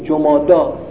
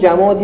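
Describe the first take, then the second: First: The word ends with an 'ah' vowel. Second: The word ends with an 'ee' vowel. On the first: The speaker calls it right. "درست میگن جمادا" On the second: The speaker calls it wrong. "بابا نه جمادی"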